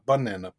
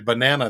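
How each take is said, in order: First: The stress is on the first syllable. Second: The stress is on the second syllable. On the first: The speaker calls it wrong. "We don't say banana, banana, banana unless there's a flat tire in the car" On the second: The speaker calls it right. "na is where the accent is"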